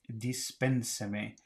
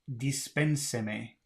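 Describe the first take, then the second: The two takes are said the same way.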